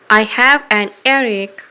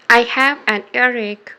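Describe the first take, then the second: No difference in how they are said.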